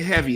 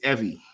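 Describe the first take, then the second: First: The word begins with a clear h sound. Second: The word begins without any h sound. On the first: "They don't say heavy" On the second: "where the hell there's a H, they drop it"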